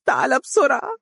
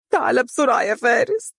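First: Even higher tearful plea, falling on بسرعة; crying. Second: Much higher tearful plea, rising on بسرعة; crying. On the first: Umm Faris repeats her crying plea, falling at the end. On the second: Umm Faris begs her son on the phone, crying and rising. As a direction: beg him to hurry through sobs. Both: Acted. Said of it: "وهي تبكي قائلة".

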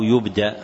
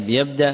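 First: يبدأ said yubda', opening with yu; damma on first letter. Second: يبدأ said yabda', opening with ya; fatha on first letter. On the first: Teacher offering students the other reading, يبدأ as yubda'. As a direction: say يبدأ in the passive, YUB-da'. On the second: Teacher asking students which reading is meant, يبدأ as yabda'. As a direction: say يبدأ in the active, YAB-da'. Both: Shown as a demonstration. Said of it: "وضبط أوله بالضم والفتح معا".

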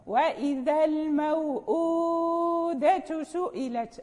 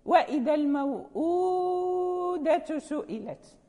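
First: Slow, with the long vowel in الموءودة drawn out to medium length; stretched recitation demo. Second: Said in the usual way. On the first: Shown as a demonstration. Teacher reciting the verse for students, الموءودة drawn out slowly. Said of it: "الثاني لا بد من مده لمن يقرأ بالتوسط". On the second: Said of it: "المد الثاني".

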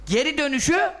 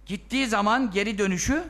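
First: "dönüşü" pressed harder and rising; stress on dönüşü. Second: Said in the usual way. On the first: Shown as a demonstration. Preacher repeating "dönüşü" to the congregation, stressed. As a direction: lean on "dönüşü" with a lift.

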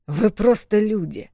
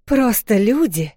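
First: Slow, scornful dismissal; disdainful. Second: Higher, louder, slow offended retort; angry echo. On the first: Wolf Миафор dismissing the humans with disgust. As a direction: look down on them. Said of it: "с каким отвращением он это произнёс". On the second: Вэл angrily repeating the wolf's insult. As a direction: fling his words back at him. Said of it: "рассердилась она". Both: Acted.

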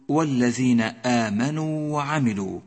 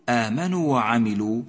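First: آمنوا chanted with a fully held final oo; correct long vowel. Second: آمنوا with its final oo cut short; dropped long vowel. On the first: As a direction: lengthen the و of آمنوا before وعملوا. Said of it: "بل الصواب أن تقول". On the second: Teacher showing the mistake to avoid, آمنوا with shortened final vowel. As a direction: clip the و of آمنوا into وعملوا. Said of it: "أي لا تسقط حرف الواو من النطق". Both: Shown as a demonstration.

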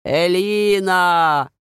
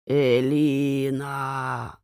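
First: Loud, slow, drawn-out call; louder distant call. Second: Slow, drawn-out call from nowhere; distant calling voice. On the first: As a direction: call the name louder from afar. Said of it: "только ещё громче". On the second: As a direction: call the name slowly from afar. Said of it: "Вдруг услышала женский голос". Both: A narrator's reading.

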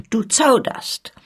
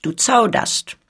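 First: Slow and sharp, with the stress on "Du". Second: Said in the usual way. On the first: A narrator's reading. Cardillac warns hesitant Olivier, slow and sharp. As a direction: cut him with "Du zauderst", leaning hard on "Du". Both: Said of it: "fuhr er nun fort mit scharfem Ton".

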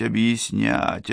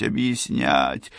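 First: Слово объяснять drawn out slowly with a rising end; slow rising repeat. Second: Слово объяснять slow, low and falling away; slow falling trail-off. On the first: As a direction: stretch объяснять, lift at the end. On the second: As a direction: let объяснять sink low and fade. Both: A narrator's reading. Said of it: "стал объяснять, объяснять".

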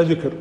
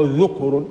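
First: ذكر said "dhikr", short i after dhal; ذكر as dhikr, the tongue's remembrance; kasra on the dhal. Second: ذكر said "dhukr", short u after dhal; ذكر as dhukr, the heart's remembrance; damma on the dhal. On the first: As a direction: say ذكر with an i vowel. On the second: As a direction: say ذكر with a u vowel. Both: Shown as a demonstration. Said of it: "بكسر الزال وبضمها".

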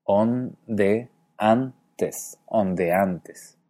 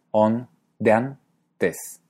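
First: ONDEANTES as on-de-an-tes, four syllables, then whole; hiatus. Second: ONDEANTES slowly as on-dean-tes, three syllables; diphthong. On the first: Teacher shows Horacio's ondeantes, in careful hiatus. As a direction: keep E and A apart in ondeantes. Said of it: "la pronuncia con cuatro sílabas". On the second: Teacher shows his and Galle's ondeantes, syllabified with diphthong. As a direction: merge E and A in ondeantes. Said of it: "la E y la A como un diptongo". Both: Shown as a demonstration.

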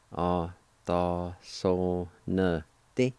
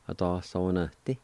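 First: "A da so ne ti." stretched slowly; slow, careful teaching pronunciation; slow demo. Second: Said in the usual way. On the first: Shown as a demonstration. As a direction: draw out every syllable of "A da so ne ti.". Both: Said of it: "it's pronounced like this".

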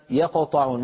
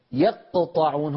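First: "يقطعون" with a single light ق; correct qalqala. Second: "يقطعون" with the ق doubled into two sounds; wrong doubled qalqala. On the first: Teacher gives the correct form before the error. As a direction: say "يقطعون" lightly, one ق only. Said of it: "ما يصح أن يقول يقطعون". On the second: Teacher imitates a student's wrong doubled ق. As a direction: say "يقطعون" as "يقتطعون", heavy double ق. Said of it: "هنا أخرجت صوتين وهذا خطأ". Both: Shown as a demonstration.

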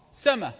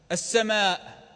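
First: "سما" ending on an open vowel; no glottal stop at the end of "سما"; final hamza dropped. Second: "السماء" closed by a glottal stop; final hamza pronounced. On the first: Teacher showing how Arabs said it, final hamza dropped. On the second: Teacher giving the full form as example, final hamza pronounced. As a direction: sound the hamza ending "السماء". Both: Shown as a demonstration. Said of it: "إذا جاءت الهمزة متطرفة تحذف".

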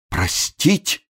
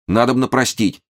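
First: High, lost, rising question; bewildered babble. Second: High, earnest "простить" as a statement; agitated urging. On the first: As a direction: echo "Простить" in helpless disbelief. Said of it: "растерянно пролепетал несчастный камергер". (растерянно переспрашивает с подъёмом) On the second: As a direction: urge "простить" with a falling, pleading close. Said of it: "очень волнуясь". (взволнованно убеждает: «надобно простить») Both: A narrator's reading.

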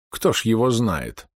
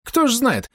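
First: Said in the usual way. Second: High-pitched doc voice; doc echoing agreement. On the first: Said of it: "я развёл руками". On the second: A narrator's reading. Doc echoes the narrator's shrug, high-pitched voice. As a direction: echo the question way up high. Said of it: "согласился со мной док".

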